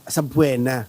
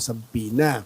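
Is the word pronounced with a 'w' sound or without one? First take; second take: with; without. First: The word has a 'w' sound: sab-weh-na. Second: The word has no 'w' sound: sa-bee-na. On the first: This is how Filipinos commonly say it. "sa mga Pilipino, sabwena" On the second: This is how it is said in English. "sa English po, sabina"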